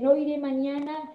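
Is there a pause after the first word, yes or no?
no. It is said without a pause after no.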